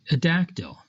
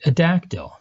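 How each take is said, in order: First: Said in the usual way. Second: "dactyl" said again, louder, with a falling close; emphatic repeat. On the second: Shown as a demonstration. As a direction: lean hard on "A dactyl" to drive it home.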